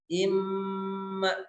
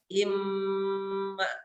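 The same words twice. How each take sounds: First: The nasal sound is held long. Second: The same.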